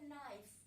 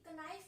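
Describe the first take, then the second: First: The word starts with n; k is silent. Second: The word starts with a sounded k. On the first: This is how the word is said today. "इसमें के silent होता है" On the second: This is how the word was said in earlier times. "पहले के time में क्या है, ये ... कनाइफ बोला जाता था"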